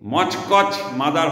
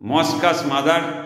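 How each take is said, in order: First: The first word sounds like 'mochkoch'. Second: The first word sounds like 'moskas'. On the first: The speaker calls it wrong. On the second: The speaker calls it right.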